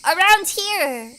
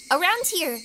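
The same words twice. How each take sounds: First: Slow, stretched Southern accent; Southern drawl. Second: Said in the usual way. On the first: Shown as a demonstration. Southern accent, demoing the local drawl. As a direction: draw out the words in a Southern accent. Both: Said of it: "we have, around here".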